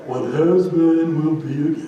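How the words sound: It is read in a gloomy Eeyore voice.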